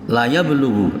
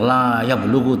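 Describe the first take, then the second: First: The vowel in "la" is short. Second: The vowel in "la" is long. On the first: It will surely reach. The speaker calls it right. "lanya dibaca pendek" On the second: It will not reach. The speaker calls it wrong. "kalau dibaca panjang la yablughu tidak sampai"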